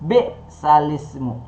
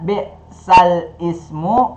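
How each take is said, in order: First: The glottal stop is dropped; 'l' links to 'ismu'. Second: The glottal stop before 'ismu' is pronounced separately. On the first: "menjadi bi'salismu, yaitu memindahkan harokat ... kasra pada huruf lam yang mati" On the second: "Yang tadinya bi'sal ismu"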